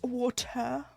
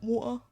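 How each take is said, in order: First: It is said with every letter, t fully pronounced. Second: It is said in an exaggerated British way, t dropped.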